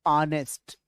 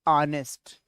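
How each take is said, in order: The two takes are said the same way.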